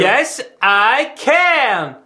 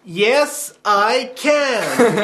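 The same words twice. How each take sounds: First: Slow, drawn-out Obama-style delivery; Obama's slogan, very slowly; Obama catchphrase. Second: A bit camp American Obama impression; lightly American and camp; half-hearted camp American voice; American accent. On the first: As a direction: stretch it out like a campaign rally. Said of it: "Go a bit, bit more". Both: Shown as a demonstration.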